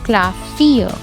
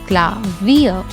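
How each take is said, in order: First: The middle consonant is an F sound. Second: The middle consonant is a V sound. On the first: The speaker calls it wrong. "I don't say it like Klavier" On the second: The speaker calls it right. "I say it like Klavier"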